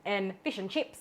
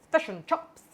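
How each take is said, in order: First: Plain Aussie "fish and chips", clear i in fish and chips; Australian accent. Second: Kiwi vowels, "Fish and chops" with a short e in fish, fesh and chops; New Zealand accent. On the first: Serving the Aussie viewers in her own Aussie accent. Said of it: "for all me Aussies". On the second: Teasing the New Zealanders with a Kiwi accent. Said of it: "chops for all my New Zealanders". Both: Retold or imitated.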